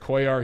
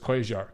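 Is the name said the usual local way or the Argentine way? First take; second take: local; Argentine. First: The name is said the common local way. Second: The name is said with Argentine double-L sounds. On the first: "everyone pronounces it Cuellar here" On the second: "everyone I've ever talked to from Argentina says the L's"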